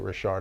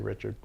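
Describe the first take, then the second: First: The name is pronounced the French way. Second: The name is pronounced the English way. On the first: This is how the family says its own name. The speaker calls it right. "they pronounce it Richard" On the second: The speaker assumes it is the English name. The speaker calls it wrong. "thinking the English version"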